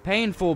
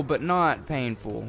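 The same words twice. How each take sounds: First: Said in the usual way. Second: "not" stressed, slower and deliberate. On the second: Shown as a demonstration. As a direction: lean on "not" in "but not painful".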